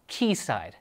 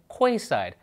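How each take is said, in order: First: The first syllable sounds like 'key'. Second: The first syllable sounds like 'kway'. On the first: The speaker calls it right. "is pronounced Keyside" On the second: The speaker calls it wrong. "I said Quayside, so I'm a dummy"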